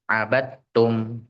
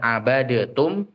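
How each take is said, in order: First: The d merges into a single strong t. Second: The d is pronounced separately before the t. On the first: The speaker calls it right. "tapi abattum" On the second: The speaker calls it wrong. "bukan abadetum"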